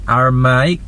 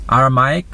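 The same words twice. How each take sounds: The two takes are said the same way.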